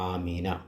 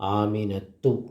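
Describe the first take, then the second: First: The name ends with a plain 'a' vowel. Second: The name ends with a final 'tu' syllable. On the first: "ആമീന എന്നാണ് പറയുക" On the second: "ആ തൂ നമ്മൾ ഉച്ചാരണത്തിൽ പറയൂല"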